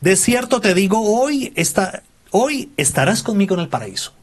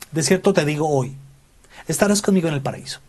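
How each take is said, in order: First: The pause comes before "hoy". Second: The pause comes after "hoy".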